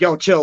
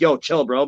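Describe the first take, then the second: First: Said in the usual way. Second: Easygoing, unaggressive "chill"; friendly calming. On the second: Retold or imitated. Joey grabs a friend to calm him, easygoing and friendly. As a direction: settle a friend down without hostility. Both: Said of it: "not in a fucked up way".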